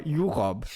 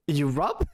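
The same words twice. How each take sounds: First: "Europe" as YOU-rob, falling at the end; alternative pronunciation. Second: "Europe" as you-ROB, ending on a rise; first pronunciation. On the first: Streamer offering another way to say "Europe", YOU-rob, falling. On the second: Streamer trying out how to say "Europe" as you-rob, rising. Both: Shown as a demonstration. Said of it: "or Europe".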